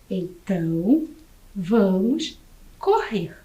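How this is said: The voice falls at the end like a statement. It states a plan to run. "É uma frase afirmativa"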